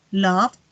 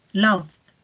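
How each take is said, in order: First: Said in the usual way. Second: "loved" with a soft d after the v; soft final D. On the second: Shown as a demonstration. Teacher contrasts base and past, "loved" with soft final D. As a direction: close "loved" on a gentle D. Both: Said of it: "terminar como una D más suave".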